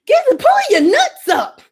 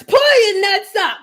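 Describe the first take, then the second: First: High, loud, bossy command; mock aggressive. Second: Drawn-out, emphatic order; slower repeat. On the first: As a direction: bark it at them, hammed up. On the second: Pretend. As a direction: lean on pull, slow and firm. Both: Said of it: "my voice not even aggressive".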